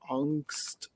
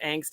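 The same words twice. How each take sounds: First: The word is said with a German pronunciation. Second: The word is said with an American pronunciation. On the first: "it is the German word for fear and anxiety" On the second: "the way we said it in the nineties in America"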